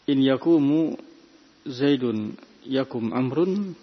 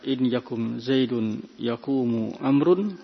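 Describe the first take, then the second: First: Only the first verb ends in a 'u' vowel. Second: Only the second verb ends in a 'u' vowel. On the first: "khata, juga keliru" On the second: "sara hadha khata'an wa da'ifan"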